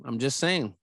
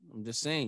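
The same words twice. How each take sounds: First: Said in the usual way. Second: Muttered under breath. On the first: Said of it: "repeats the phrase". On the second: Shown as a demonstration. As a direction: drop the voice, softer and lower. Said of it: "repeats the phrase, much softer".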